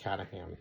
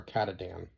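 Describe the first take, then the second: First: "Catahan", ending in HAN; tentative pronunciation. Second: "Katadan", ending in DAN, offered as the other option; alternative pronunciation. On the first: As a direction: say "Catahan" with a soft h before the final an. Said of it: "I think it was pronounced". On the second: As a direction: say "Katadan" with a d before the final an. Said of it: "One of those two". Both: Shown as a demonstration.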